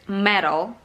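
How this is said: It is said with an American accent. "American says"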